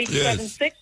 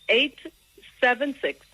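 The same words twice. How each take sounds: First: The digits are said quickly. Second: The digits are said slowly.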